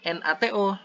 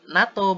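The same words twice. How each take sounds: First: It is spelled out letter by letter. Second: It is said as a single word. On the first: The speaker calls it wrong. "bukan NATO" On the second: The speaker calls it right. "Jadi disebut NATO"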